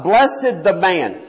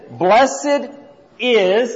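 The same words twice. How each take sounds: First: Said in the usual way. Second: "Blessed" then a pause, then "is," set apart and lifted; stress on "is". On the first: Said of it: "Look at this". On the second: Shown as a demonstration. Teacher showing the class the added italic word, stressing "is". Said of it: "in italics".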